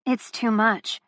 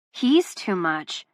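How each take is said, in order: First: Said in the usual way. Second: Drawn out, each word weighed; slowed, heavy. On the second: A narrator's reading. Narrator overwhelmed by Luca, slow and heavy. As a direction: let "He's too much" sink slowly.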